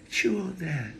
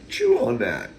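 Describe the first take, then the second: First: It is said in a mild, non-challenging tone. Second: It is said in a defiant, challenging tone. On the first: "Another. Here I'm going to say" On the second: "You heard me say, chew on that defiantly"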